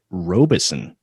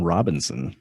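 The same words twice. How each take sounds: First: "Robeson" with no N before the final "son"; corrected surname. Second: "Robinson" with an extra N sounded before the final "son"; misread surname. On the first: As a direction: say "Robeson", only one N, at the very end. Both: Real, not acted. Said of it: "stuck an extra N in there".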